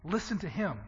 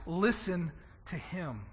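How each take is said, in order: First: Said in the usual way. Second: "listen to him" slow, with weight on "listen"; slow and soft, each word of "listen to him" weighed; emphasized. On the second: Shown as a demonstration. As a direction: lean on "listen", stretching the line out. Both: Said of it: "But to emphasize".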